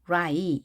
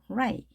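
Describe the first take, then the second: First: The vowel is pronounced strongly. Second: The vowel is pronounced weakly. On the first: The speaker calls it wrong. "이렇게 하는 것이 아니라" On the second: The speaker calls it right. "이도 약하게 해주라는 얘기죠"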